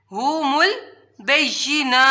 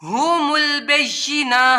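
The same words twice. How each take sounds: First: ہم البینہ breathed out with no voice, slowly; whispered repeat. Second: Said in the usual way. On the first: Shown as a demonstration. Teacher repeating ہم البینہ in a whisper.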